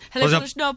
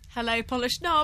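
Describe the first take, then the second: First: The phrase is said very quickly. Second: The phrase is said at a normal pace.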